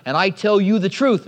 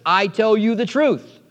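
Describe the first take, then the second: First: Said in the usual way. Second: "I tell you the truth" slowly, each word weighted; emphatic. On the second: Shown as a demonstration. Preacher showing Jesus's emphasis on "I tell you the truth", slow and emphatic. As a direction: lean firmly on "I tell you the truth", drawing it out. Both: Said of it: "Notice his emphasis".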